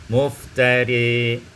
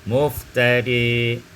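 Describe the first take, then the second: The two takes are said the same way.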